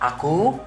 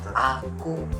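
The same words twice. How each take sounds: First: The word is emphasized by a change in pitch. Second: The word is emphasized by a change in speed. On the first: "Tekanan nada" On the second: "tekanan temponya"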